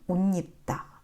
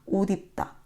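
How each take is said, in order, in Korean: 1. 두 단어가 빠르게 이어져 발음되고, 니은이 첨가돼요. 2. 단어 사이에 쉼이 있고, 니은은 첨가되지 않아요. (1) "빠르게 한 단어로 이어서 발음할 때는 니은이 첨가됩니다" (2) "사이에 쉼을 두고, 두고 만약에 따로 읽으면 그렇게 발음되지 않겠죠"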